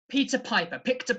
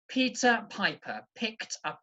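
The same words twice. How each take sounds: First: It is said quickly. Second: It is said slowly and carefully. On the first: "I'm going to try and do it a bit faster" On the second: "I'm going to say it slowly"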